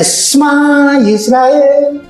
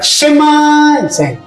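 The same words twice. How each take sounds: First: The first vowel of Shema is barely heard. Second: The first vowel of Shema is clearly heard. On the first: The speaker calls it right. "E-nya tidak terlalu kentara" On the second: The speaker calls it wrong.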